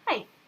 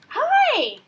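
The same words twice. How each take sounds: First: It is said in a reserved, polite way. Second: It is said in an excited, friendly way.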